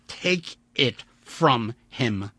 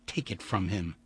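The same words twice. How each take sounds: First: Slow, insistent, every word weighed; slow firm repeat. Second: Said in the usual way. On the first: Acted. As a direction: drag it out as a warning. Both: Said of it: "Vandeleur repeated".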